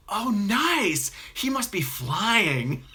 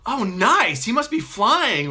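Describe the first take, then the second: First: High, slow, sugary enthusiasm; overly bright praise of a member; gushing cult leader. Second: High, loud, slow gushing; unnaturally thick enthusiasm. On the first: Cult leader hearing a member's news, gushing. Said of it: "Hugh Dancy's character goes". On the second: Cult leader praising a member, thick enthusiasm. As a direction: pour on fake cheer. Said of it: "He's like". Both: Retold or imitated.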